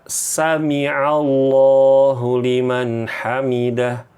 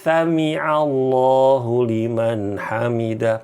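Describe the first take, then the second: First: The first sound is a clear s. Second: The first sound is a lisped s.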